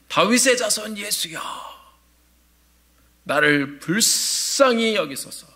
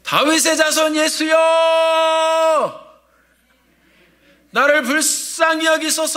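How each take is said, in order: First: It is said in a calm, normal voice. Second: It is shouted loudly with great effort.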